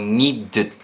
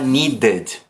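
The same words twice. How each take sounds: First: The two consonant sounds are run together. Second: The ending has a full extra vowel. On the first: The speaker calls it right. "Eu vou tentar grudar o som das duas consoantes" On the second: The speaker calls it wrong. "eu não vou falar needed. Eu não vou colocar essa vogal a mais que não precisa"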